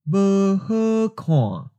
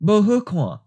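First: The phrase is said slowly and deliberately. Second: The phrase is said at normal conversational speed. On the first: "and then slowly" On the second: "First natural speed"

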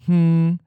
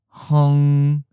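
First: The ng sound forms the syllable with no vowel. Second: A short u vowel comes before the ng sound. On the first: This is the most common pronunciation. "The first and the most common version" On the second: This is a less common alternative pronunciation. "Some people may also pronounce the first word"

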